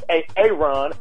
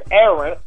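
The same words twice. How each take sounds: First: The name is said in a changed, exaggerated form. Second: The name is said in its ordinary form. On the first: "turning their normal names into more urban names" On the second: "their names are normal names"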